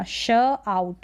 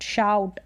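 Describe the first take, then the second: First: श आउट in two slow pieces; sounded out. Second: शाउट in one piece; शाउट as a single syllable with "ow"; blended word. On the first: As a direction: pause between श and आउट. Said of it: "break कर सकते हैं". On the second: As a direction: join the sounds into शाउट. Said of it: "ओयू को आऊ पढ़ रहे हैं". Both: Shown as a demonstration.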